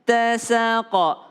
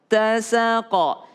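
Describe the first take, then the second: The two takes are said the same way.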